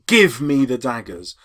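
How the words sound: The stress falls on the word give. "A modern audience would give the stress on give"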